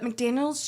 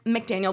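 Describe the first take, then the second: First: The name ends with an s sound. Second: The name ends without an s sound. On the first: The speaker calls it wrong. "McDaniels just seems like that's what it should be" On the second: The speaker calls it right. "I know his last name is Mac- McDaniel"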